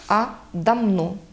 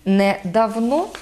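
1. Средний согласный — звук «м». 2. Средний согласный — звук «в». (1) "звук «ви» переходить у звук «ми»" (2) "Не"

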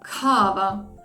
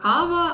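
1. Перший приголосний з придихом. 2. Перший приголосний без придиху. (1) "а вони скажуть" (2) "ми кажемо"

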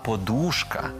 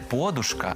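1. Наголос на другому складі. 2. Наголос не на другому складі. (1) "Наголос падає на другий склад" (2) "не подушка"

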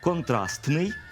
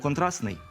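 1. Між s і n чути звук t. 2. Між s і n звук t не чути. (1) "пишемо «контрастний»" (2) "але вимовляємо «контрастний»"

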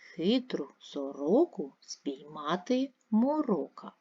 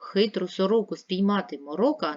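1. Читається повільно, по складах. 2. Читається швидко і голосно. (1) "Прочитайте повільно по складах" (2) "Прочитайте швидко, голосно"

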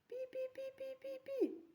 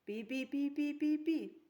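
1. Це сказано тихим голосом. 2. Це сказано гучним голосом. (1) "Давайте з вами скажемо тихо" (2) "А давайте ми з вами скажемо голосно"

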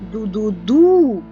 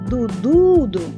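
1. Останній склад наголошений. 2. Середній склад наголошений. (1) "Бо ми виділяємо наголосом останній склад" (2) "ми будемо виділяти наголосом середній склад"

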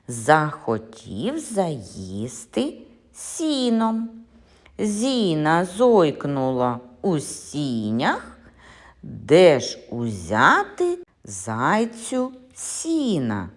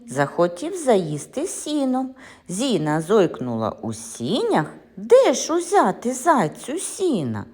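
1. Її промовляють повільніше. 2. Її промовляють швидше.

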